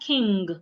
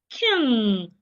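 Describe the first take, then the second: First: A g sound is heard at the end. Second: No g sound is heard at the end. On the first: The speaker calls it wrong. "It's not king" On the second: The speaker calls it right.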